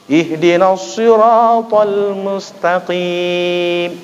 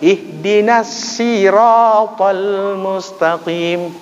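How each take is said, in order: First: The word sirat starts with an emphatic s. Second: The word sirat starts with a plain s. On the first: This is the standard written reading. "Itu bacaan Utsmani" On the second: This is a regional dialect reading. "Shad jadi sin"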